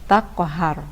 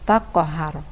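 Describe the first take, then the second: No difference in how they are said.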